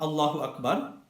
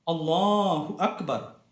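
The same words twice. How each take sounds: First: The vowel in 'la' is cut short. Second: The vowel in 'la' is held long. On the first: The speaker calls it wrong. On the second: The speaker calls it right. "The A sound is pronounced with two harakat"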